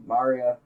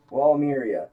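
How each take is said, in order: First: Maria with an open "ah" in the first syllable; second pronunciation option. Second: Walmiria with "MEER-ee-uh" at the end; first pronunciation option. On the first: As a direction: say Maria as MAR-ee-uh. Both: Shown as a demonstration. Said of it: "one of those two".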